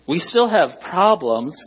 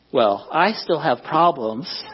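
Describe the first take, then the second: First: Said in the usual way. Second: Slow self-correction, leaning on "I"; stress on I. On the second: Shown as a demonstration. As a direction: put the weight on "I", drawn out slowly. Corrects "we" to himself.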